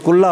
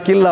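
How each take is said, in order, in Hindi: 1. 'lla' से पहले का स्वर u है। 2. 'lla' से पहले का स्वर i है। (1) "एक तो कुल्ला हो गया" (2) "दूसरा किल्ला हो गया"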